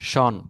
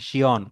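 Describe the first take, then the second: First: The ending is a single syllable, 'shon'. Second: The ending has an extra glide, 'shiyon'. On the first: The speaker calls it wrong. "শন না" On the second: The speaker calls it right.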